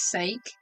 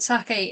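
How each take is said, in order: First: The word rhymes with take. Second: The word does not rhyme with take. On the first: It is the usual English word. "we would pronounce it as sake, because that's, you know, for God's sake" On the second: It refers to the Japanese drink. "sake is like the drink"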